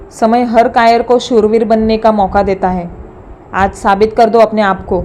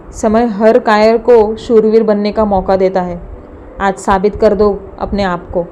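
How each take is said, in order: First: Filmy line with less bite; boy repeats movie line, lighter, less angry; Baahubali dialogue. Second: Slow heroic filmy delivery; boy declaiming a movie line, mock angry; Baahubali dialogue. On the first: A hint of filmy hero, boy reciting to his uncle. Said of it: "Rajne Naveen dialogue म्हटला". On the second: A hint of heroic anger, boy imitating Baahubali to his sister. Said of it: "नजरेत राग आणत ... dialogue मारतच". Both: A narrator's reading.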